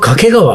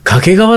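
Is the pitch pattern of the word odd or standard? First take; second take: odd; standard. First: The word has an odd pitch pattern. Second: The word has a standard pitch pattern. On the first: This is how the speaker himself always says it. "でも俺は掛川" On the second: This may be how local people say it. "もしかしたら掛川の人は掛川って言ってんのかもしんない"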